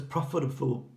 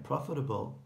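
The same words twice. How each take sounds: First: "profitable" fumbled, with a stray f before the last syllable; stumbled word. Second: Said in the usual way. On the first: Real, not acted. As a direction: trip over the end of "profitable", like "profitabful". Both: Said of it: "try that again".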